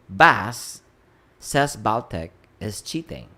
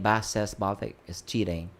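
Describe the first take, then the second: First: It is said with pauses after Bas and Baltic. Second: It is said without pauses inside the sentence.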